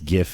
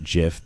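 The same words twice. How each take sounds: First: It starts with a hard G sound. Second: It starts with a soft G sound. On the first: Some people decided this is the correct form. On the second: This is the older form.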